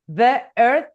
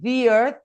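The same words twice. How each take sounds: First: The two words are cut apart by a break. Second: The two words flow together without a break. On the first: The speaker calls it wrong. "it sounds off. I have to cut in the middle" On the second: The speaker calls it right. "So the two S do not become mixed"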